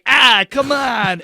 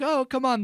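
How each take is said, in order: First: It is said in an impatient, bullying tone. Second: It is said in a friendly, nice tone.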